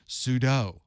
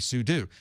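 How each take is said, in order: First: The word ends with a 'doe' sound. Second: The word ends with a 'do' sound. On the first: "some people will say" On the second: "You're doing something. So I say sudo"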